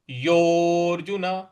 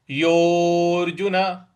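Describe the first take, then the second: No difference in how they are said.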